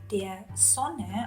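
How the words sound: Sonne starts with a voiceless s sound. "That is also read S in southern Germany"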